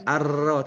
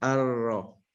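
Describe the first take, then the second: First: The r sound is rolled with a trill. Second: The r sound is held without any trill. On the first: The speaker calls it wrong. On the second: The speaker calls it right. "tapi ar-ro. Tebal"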